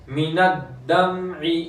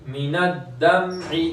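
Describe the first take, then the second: No difference in how they are said.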